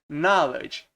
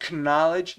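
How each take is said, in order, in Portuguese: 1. A palavra começa sem som de k. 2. A palavra começa com um som de k audível. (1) "é knowledge. Esse K é mudo" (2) "Então não é K, knowledge ou knowledge, não é assim"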